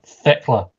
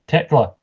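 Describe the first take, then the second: First: The name begins with a TH sound. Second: The name begins with a plain T sound. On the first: The speaker calls it wrong. "not Thekla" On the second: The speaker calls it right. "it's Tekla"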